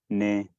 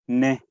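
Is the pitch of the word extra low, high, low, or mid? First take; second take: low; high. First: The word is said on a low pitch. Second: The word is said on a high pitch. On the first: "el tono dos, que es tono bajo" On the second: "el tono cuatro, que es un tono alto"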